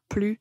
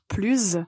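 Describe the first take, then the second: First: The word ends without a z sound. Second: The word ends with a z sound. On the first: A consonant follows the word. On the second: A vowel follows the word.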